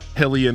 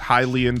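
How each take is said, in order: First: The first syllable sounds like 'hill'. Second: The first syllable sounds like 'high'. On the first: The speaker calls it wrong. "Hillian is not a thing" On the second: The speaker calls it right. "you pronounce the word as Hylian"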